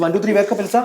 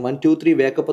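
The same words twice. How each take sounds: First: Quick, high-pitched rousing call; hypnotist's sudden raised-voice wake-up; wake-up command. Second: Said in the usual way. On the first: Real, not acted. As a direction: call out the count to snap someone out of trance. Actual wake-up command to subject.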